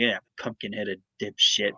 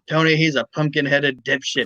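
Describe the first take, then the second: First: It is muttered quietly under the breath. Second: It is said loudly and openly.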